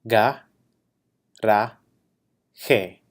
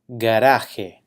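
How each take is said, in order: First: Each syllable is said separately with pauses. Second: The word is said smoothly at normal speed. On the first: "break it down into syllables" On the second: "saying the word in Spanish at a normal pace"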